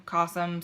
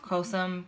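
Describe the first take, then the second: First: Cossum with a short o, like "kah-sum"; "Cossum" again, the o now short and open; second try. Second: Cossum with a long o, like "coh-sum"; first guess at "Cossum", long o; unsure name. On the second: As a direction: tries "Cossum" as KOH-sum. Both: Shown as a demonstration. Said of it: "something along those lines".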